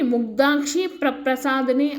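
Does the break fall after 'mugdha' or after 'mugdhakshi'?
after mugdhakshi. The break falls right after 'mugdhakshi'. The speaker calls it wrong. "విడదీసి చదవకూడదు"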